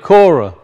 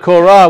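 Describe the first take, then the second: First: The name is said with an English pronunciation. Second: The name is said with a Hebrew pronunciation. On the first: "We usually pronounce it Korah" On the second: "So in Hebrew it's Korah"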